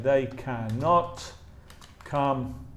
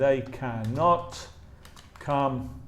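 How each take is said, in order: First: The negative is said in full as two syllables. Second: The negative is said in full as two syllables.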